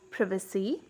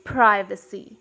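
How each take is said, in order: First: "privacy" with a short I; British "privacy", first vowel as in "give"; British pronunciation. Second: "privacy" with a long I; American "privacy", first vowel as in "eye"; American pronunciation. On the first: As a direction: say "privacy" the British way, as PRIV-uh-see. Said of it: "In British accent". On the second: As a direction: say "privacy" the American way, as PRY-vuh-see. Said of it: "in American accent". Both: Shown as a demonstration.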